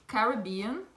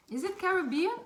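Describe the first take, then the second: First: Said in the usual way. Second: "Caribbean" asked with a sharp high rise; puzzled question. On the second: Shown as a demonstration. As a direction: lift "Caribbean" high, doubting the name. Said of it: "Why it says a different name here?".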